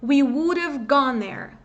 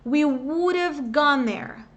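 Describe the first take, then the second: First: We would have gone there with a clearer have; natural repeat; fuller second take. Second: We would have gone there said slowly, sounds linked; slow drill for students to repeat; slow teaching model. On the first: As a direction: repeat the drill at natural pace. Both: Shown as a demonstration. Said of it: "praticar primeiro esse som inicial".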